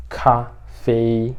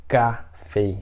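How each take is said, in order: First: Café with a breathy, puffed k; café, k aspirated like Chinese kā. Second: Café with a plain, unaspirated k; café, no breath on the k; wrong café. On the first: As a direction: blow air out on the k of café. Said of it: "Você meio que assopra". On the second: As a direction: say café without any puff of air. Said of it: "Então, não é". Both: Shown as a demonstration.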